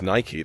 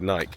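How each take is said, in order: First: It is said the American way. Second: It is said the British way. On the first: "in the U S, where it started, it is" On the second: "Like in the U K, it is called"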